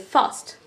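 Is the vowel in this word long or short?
short. The vowel is short and clipped. "The American is a very short one, so you just say fast"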